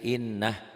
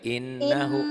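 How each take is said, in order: First: The word stops short on the h sound. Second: The word ends with a long drawn-out hu. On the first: "dihentikan sih innah" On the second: "Hu-nya panjang tuh kayak gitu"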